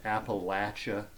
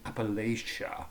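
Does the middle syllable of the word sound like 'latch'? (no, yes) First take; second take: yes; no. First: The middle syllable sounds like 'latch'. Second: The middle syllable does not sound like 'latch'. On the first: The local way of saying it. The speaker calls it right. "it is pronounced Appalachia ... It's Latch" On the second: An outsider's way of saying it. The speaker calls it wrong. "It's like Yankees trying to tell Southerners how to speak"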